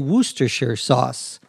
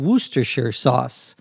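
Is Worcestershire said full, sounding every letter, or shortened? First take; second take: shortened; shortened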